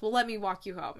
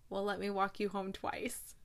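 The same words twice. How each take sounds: First: Said in the usual way. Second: Hushed, half-whispered sweet line; soft romantic delivery. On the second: Retold or imitated. He offers to walk her home, softly romantic. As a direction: drop to a near whisper for the romantic payoff.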